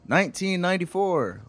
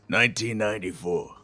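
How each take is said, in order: First: It is read in an ordinary speaking voice. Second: It is read in a dramatic noir narrator voice.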